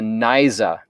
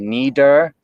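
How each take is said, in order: First: The middle consonant is a Z-like buzz. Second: The middle consonant is a D-like stop. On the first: "you'll hear a completely different phoneme" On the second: "so that it is more al- alveolar ridge"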